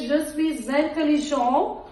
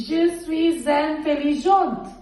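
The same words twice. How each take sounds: First: "suis intelligent" linked with z, final t silent; masculine pronunciation. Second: "suis intelligente" linked with z, slow, final t sounded; feminine pronunciation. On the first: Teacher saying what boys say, "intelligent" without final t. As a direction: end "intelligent" on a rising nasal vowel. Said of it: "masculine जो है boys". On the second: Teacher saying what females say, "intelligente" with final t. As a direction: close "intelligente" on a clear falling t. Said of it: "जो female है वो क्या बोलेंगी". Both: Shown as a demonstration.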